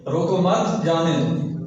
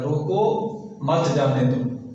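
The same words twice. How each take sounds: First: The pause comes after the word मत. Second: The pause comes after the word रोको.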